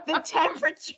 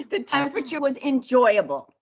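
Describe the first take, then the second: First: "The temperature" lifted up at the end like a question; question-mark rise. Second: "the temperature was enjoyable" falling to a firm full stop; statement tune, "enjoyable" going down; downward inflection. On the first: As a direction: make "The temperature" sound unsure, pitch rising. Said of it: "instead of a question mark". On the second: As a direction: drop the pitch on "enjoyable" like a period. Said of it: "Put a period instead of". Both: Shown as a demonstration.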